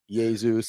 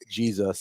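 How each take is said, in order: First: The name is pronounced in a Greek/Latin style. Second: The name is pronounced in an English style. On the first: "to Jesus in the Greek and Latin" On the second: "and then we got Jesus"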